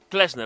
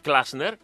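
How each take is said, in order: First: The first vowel sounds like 'e'. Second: The first vowel sounds like 'a'. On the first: The speaker calls it right. "Να σε λένε Κλέσνερ" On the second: The speaker calls it wrong. "όχι Κλάσνερ"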